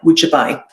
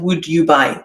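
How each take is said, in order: First: Would and you run together into one sound. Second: Would and you are said as separate words. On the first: The speaker calls it right. "this pronunciation of the question form" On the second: The speaker calls it wrong. "not would you buy"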